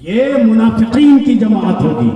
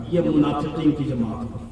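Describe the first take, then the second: First: मुनाफिकीन stretched out slowly at full voice; slow, weighty stress on मुनाफिकीन; emphatic repeat. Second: Low, soft aside from the pulpit; hushed, low-pitched remark; subdued statement. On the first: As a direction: proclaim it, dragging out मुनाफिकीन. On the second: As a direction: say it quietly, with the voice dropped. First take, dropped low. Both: Real, not acted.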